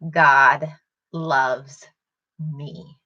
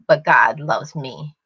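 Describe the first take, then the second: First: The words are said slowly. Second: The words are said fast.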